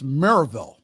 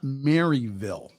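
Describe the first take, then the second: First: It is pronounced the way locals say it. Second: It is pronounced the way outsiders say it. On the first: The speaker calls it right. "It's Maryville" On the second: The speaker calls it wrong. "that's not how the locals pronounce it"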